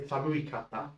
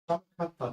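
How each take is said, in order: First: An extra 'i' vowel is heard after 'samu'. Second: No vowel is heard after the 'samu' part. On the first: The speaker calls it wrong. "Do not say samuikata, that sounds odd" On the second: The speaker calls it right. "we're dropping the I every single time"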